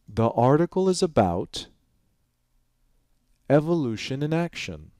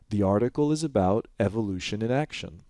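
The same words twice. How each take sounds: First: Long, exaggerated pauses separate the word groups. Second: Short, natural pauses separate the word groups. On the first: "I'm going to exaggerate, enhance it" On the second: "if I just say this naturally"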